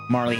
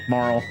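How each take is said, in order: First: The name is said with two syllables. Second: The name is said with one syllable. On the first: The speaker calls it wrong. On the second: The speaker calls it right.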